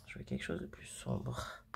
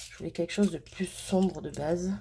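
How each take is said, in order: First: Répété dans un souffle, plus grave et sans voix; chuchoté. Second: Said in the usual way. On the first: Real, not acted. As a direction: se le redit tout bas, déçue. Répétition soufflée pour elle-même. (murmure déçu pour elle-même)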